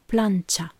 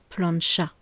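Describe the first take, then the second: First: The ch is a short, light tch sound. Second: The ch is a long, hushing sh sound. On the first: This is the Spanish pronunciation. "un ch bref et léger ... entre le son T et le son A. Voilà" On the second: This is the French pronunciation. "Alors qu'en français, on dit plancha"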